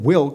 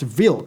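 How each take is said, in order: First: The name is said with English sounds. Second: The name is said with Polish sounds. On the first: The speaker calls it wrong. "The anime's English dub pronounces it Wilk, but I'm pretty sure it's wrong" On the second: The speaker calls it right. "based on my research, it's pronounced Wilk"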